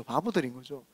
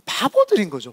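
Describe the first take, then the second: First: Much softer, lower repeat; hushed aside repeating the verdict; quiet echo. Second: Said in the usual way. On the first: Real, not acted. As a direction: let it fall away to almost nothing.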